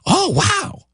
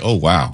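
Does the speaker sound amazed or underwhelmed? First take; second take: amazed; underwhelmed. First: It sounds genuinely amazed and excited. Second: It sounds flat and underwhelmed.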